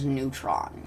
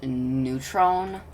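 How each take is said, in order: First: Neutron with an open "ah", "noo-trahn"; usual pronunciation. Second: NEUTRON with a long O, "noo-trone"; original pronunciation. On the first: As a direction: say Neutron to rhyme with "on". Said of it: "now I kinda just say it as". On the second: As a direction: say Neutron to rhyme with "bone". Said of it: "supposed to be pronounced". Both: Shown as a demonstration.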